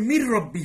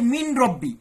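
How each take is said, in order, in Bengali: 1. n পুরোপুরি মিশে গিয়ে দ্বিগুণ r হয়ে যায়। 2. n-টি r-এর আগে আলাদাভাবে উচ্চারিত হয়। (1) "মির রব্বি হয়ে যাচ্ছে" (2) "মিন রব্বি নুন সাকিন পরে র আসছে"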